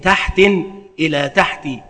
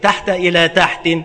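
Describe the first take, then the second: First: First word has tanwin, second ends in kasra. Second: First word ends in fatha, second has tanwin. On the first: "بتنوين الأول وكسر الثاني" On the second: "بفتح الأول وتنوين الثاني"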